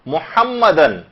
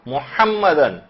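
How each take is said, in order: No difference in how they are said.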